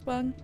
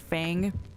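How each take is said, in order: First: The vowel sounds like 'feng'. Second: The vowel sounds like 'fang'. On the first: The speaker calls it right. "The proper pronunciation is feng" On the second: The speaker calls it wrong. "A lot of people say fang"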